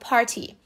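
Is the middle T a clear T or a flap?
clear T. The middle T is a clear T.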